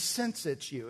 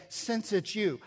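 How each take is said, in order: First: Said in the usual way. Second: "Since it's you" said higher, with weight on "you"; emphatic. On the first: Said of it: "which means". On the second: Shown as a demonstration. Preacher showing Peter's certainty with "Since it's you", emphatic. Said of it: "It's an emphatic way of saying".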